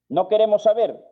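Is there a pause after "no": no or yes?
no. It runs on with no pause after no.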